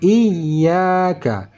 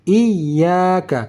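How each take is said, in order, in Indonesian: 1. Vokal setelah bunyi y dipanjangkan. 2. Vokal setelah bunyi y dipanjangkan.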